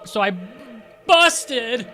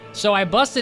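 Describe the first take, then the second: First: The word busted is said with strong emphasis. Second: The word busted is said plainly, without emphasis. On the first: The speaker calls it right. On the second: The speaker calls it wrong.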